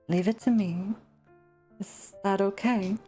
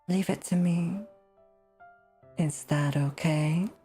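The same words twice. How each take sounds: First: The words are said in a casual, plain way. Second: Every word is enunciated slowly and deliberately. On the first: The speaker calls it wrong. "I am totally not doing justice to this" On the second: The speaker calls it right. "Something more like that, maybe"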